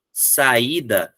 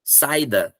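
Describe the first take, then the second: First: "saída" as sa-Í-da; stressed i apart from the a in "saída"; vowels separated. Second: "saída" misread as SAI-da; vowels glued. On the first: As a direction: read "saída" in three clear syllables. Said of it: "ler separado o U e o I". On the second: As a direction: say "saída" in two syllables, stress on sai. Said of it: "Ele vai grudar". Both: Shown as a demonstration.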